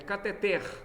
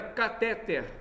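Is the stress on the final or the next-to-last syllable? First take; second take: final; next-to-last. First: The stress is on the final syllable. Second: The stress is on the next-to-last syllable. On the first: The speaker calls it right. "São oxítonos" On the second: The speaker calls it wrong. "Não é paroxítono"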